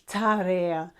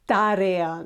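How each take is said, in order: First: The T is released with a puff of air. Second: The T is dry, with no puff of air. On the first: The speaker calls it wrong. "not tarea" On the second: The speaker calls it right. "you will say tarea"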